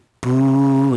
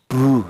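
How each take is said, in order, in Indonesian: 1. Vokalnya ditahan dua ketuk. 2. Vokalnya ditahan satu ketuk pendek. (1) "fungsinya wawu mati ini yaitu memanjangkan bacaan huruf ba" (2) "dibaca pendek"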